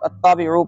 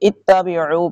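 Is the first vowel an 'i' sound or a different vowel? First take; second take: different vowel; i sound. First: The word starts with a vowel other than 'i'. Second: The word starts with a short 'i' vowel. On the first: The speaker calls it wrong. "بعض لوگ اتبعوا پڑھتے ہیں، وہ غلط ہے" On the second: The speaker calls it right. "الف کے نیچے زیر آتی ہے"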